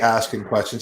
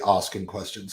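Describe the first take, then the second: First: It is said in a plain American accent. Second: It is said in an imitated British accent. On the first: The speaker calls it wrong. "you can't say asking questions" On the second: The speaker calls it right. "You have to say asking questions. I know it's not authentic coming out of my mouth"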